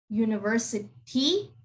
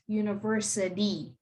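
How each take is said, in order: First: The middle consonant is a clear T sound. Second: The middle consonant is a soft D sound. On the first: The speaker calls it wrong. "It's not university" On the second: The speaker calls it right. "the T is pronounced like a D"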